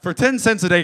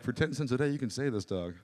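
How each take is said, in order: First: High, loud mock-advert shout; forceful raised voice, pitched up; loud parody appeal. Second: Mildly imitated sad-advert plea; understated mock charity spokeswoman; lightly voiced appeal, tailing off softer; celebrity charity appeal. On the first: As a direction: blare out the charity pitch. Own louder version of advert. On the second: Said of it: "And she's like".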